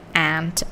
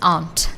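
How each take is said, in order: First: It is said with an American accent, like ant. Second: It is said with a British accent. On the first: "in American English, when it is pronounced, it's pronounced more like aunt, as in the the ant" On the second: "in British English, it's aunt, so it's a different pronunciation"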